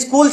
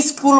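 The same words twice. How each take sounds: First: Said in the usual way. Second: স্কুল with an i added in front, "is-kul"; added initial vowel. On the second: Shown as a demonstration. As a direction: put a short i before স্কুল. (স্কুল-এর আগে ই যোগ করে "ইস্কুল") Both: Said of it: "রশ্মিটা সামনে যুক্ত হইছে".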